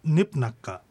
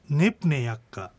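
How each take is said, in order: First: ねぷなっか with ne-ya merged into na; run-together ねぷなっか; everyday contracted pronunciation. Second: ねぷねやっか with ne and ya kept separate; uncontracted ねぷねやっか; full careful form. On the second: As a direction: sound every syllable of ねぷねやっか. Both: Shown as a demonstration. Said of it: "普通の発音で".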